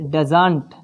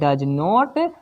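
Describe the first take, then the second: First: It is said as one short contracted word. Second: It is said as two separate full words.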